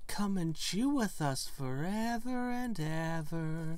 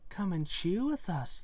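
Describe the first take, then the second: First: Slow, eerie sing-song; creepy drawn-out invitation. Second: A little higher, sing-song invitation; lightly voiced coquettish twins.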